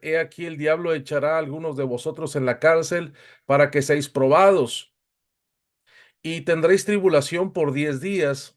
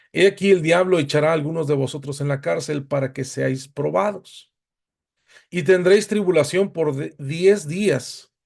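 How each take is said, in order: No difference in how they are said.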